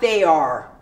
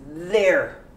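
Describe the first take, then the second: First: It is said as two separate syllables. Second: It is said as one syllable. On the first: The speaker calls it wrong. "not they are" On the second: The speaker calls it right. "You pronounce there"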